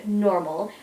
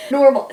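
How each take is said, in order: First: Said in the usual way. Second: "Normal." said again, louder and punched with a firm falling finish; emphatic repeat. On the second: Shown as a demonstration. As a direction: land the word "Normal." hard and loud.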